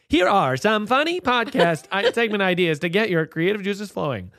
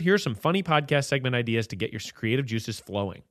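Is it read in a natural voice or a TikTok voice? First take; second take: TikTok voice; natural. First: It is read in a TikTok voice. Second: It is read in his natural voice.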